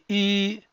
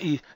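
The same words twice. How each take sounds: First: The vowel is held long. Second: The vowel is short. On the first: The speaker calls it right. "c'est I" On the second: The speaker calls it wrong. "c'est pas I"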